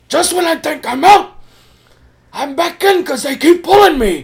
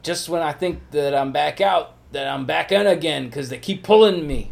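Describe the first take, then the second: First: Hammed-up screaming movie mobster; very high, loud mock-anguished shout; Al Pacino. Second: Lightly voiced movie mobster quote; raised, slightly louder film-line delivery; Al Pacino. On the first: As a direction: yell the film line at full tilt. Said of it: "screaming shit like that". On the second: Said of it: "that's exactly how Al Pacino said it".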